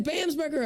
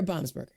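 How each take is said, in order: First: Bamsberger with "bam" as in slam; checking pronunciation. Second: Baumsberger with "bahm" at the start; checking pronunciation. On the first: Host checks guest's surname, Bamsberger said with "bam". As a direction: open Bamsberger with a short "a", as "bam". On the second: Host checks guest's surname, Baumsberger said with "bahm". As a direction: open Baumsberger with a broad "ah", as "bahm". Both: Shown as a demonstration. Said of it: "Did I say that right?".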